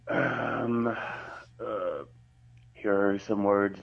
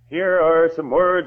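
First: The voice is pitched low. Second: The voice is pitched high. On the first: "Here are some words down low" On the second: "Here are some words up high"

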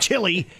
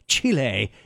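First: The word ends with a plain "ee" sound. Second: The word ends with an added "eh" sound. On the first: The speaker calls it wrong. "It's not Chile" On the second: The speaker calls it right. "the cool way with a little dash on the end"

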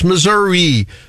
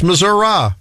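First: The word ends with an 'ee' sound. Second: The word ends with an 'uh' sound. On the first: "the state name ends in I, so it's Missouri" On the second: "But sometimes for me, it's Missouri"

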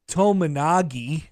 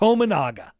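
First: The name ends with a 'gi' sound. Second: The name ends with a plain 'ga' sound. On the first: The speaker calls it wrong. "Matt Painter called him Tominagi" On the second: The speaker calls it right. "Tominaga looks exactly how it looks"

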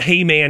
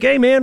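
First: It is said in a casual, offhand tone. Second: It is said in a polite, courteous tone.

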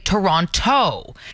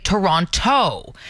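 First: The second T sound is clearly pronounced. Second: The second T sound is clearly pronounced.

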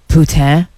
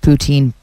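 First: The word is said the French-leaning way. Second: The word is said the common local way. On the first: The speaker calls it wrong. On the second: The speaker calls it right.

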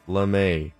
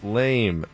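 First: The word has a non-American, foreign-sounding pronunciation. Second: The word has a plain American pronunciation. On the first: The speaker calls it wrong. "not lame. We live in America" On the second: The speaker calls it right. "it's pronounced lame"

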